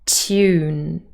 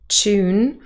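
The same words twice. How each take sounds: First: It starts with a t followed by a y. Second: It starts with a ch sound. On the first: This is the standard British pronunciation. "So we have a t and a y" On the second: This is a British pronunciation with coalescence. "the pronunciation tune with a ch"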